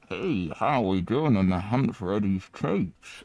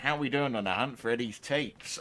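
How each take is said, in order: First: The voice sounds muffled, mouth close to mic. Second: The voice sounds clear and normal.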